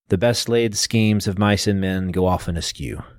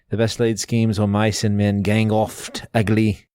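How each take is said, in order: First: It is said in a standard, non-Scottish accent. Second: It is said in a Scottish accent.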